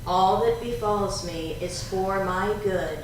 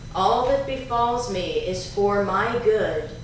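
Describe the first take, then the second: First: It is said in a quieter, softer voice. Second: It is said in a strong, loud voice. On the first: "Now a little softer" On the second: "first in a strong voice"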